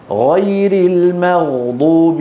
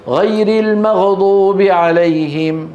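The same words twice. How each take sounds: First: المغضوب slow, غ held with no bounce; correct still Ghain. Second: المغضوب with a bounced, echoing غ; bouncing Ghain error. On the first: Teacher correcting the mistake for students, unbounced غ. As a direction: sustain غ in المغضوب smoothly into ض. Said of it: "انتبهتوا؟". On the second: Teacher showing students the common mistake, qalqala on غ. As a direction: add a little release after غ in المغضوب. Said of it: "قلقلتها". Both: Shown as a demonstration.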